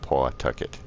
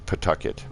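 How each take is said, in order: First: It is said with an outsider's pronunciation. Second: It is said with the local pronunciation. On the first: The speaker did not live there. The speaker calls it wrong. "not Pawtucket" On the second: The speaker lived there. The speaker calls it right. "if you lived there, it was Pawtucket"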